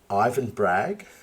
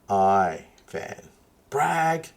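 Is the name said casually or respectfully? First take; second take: casually; respectfully. First: The name is said quickly and casually. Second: The name is said slowly and respectfully. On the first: The speaker calls it wrong. "Try again" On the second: The speaker calls it right. "put a little bit of respect on your tone"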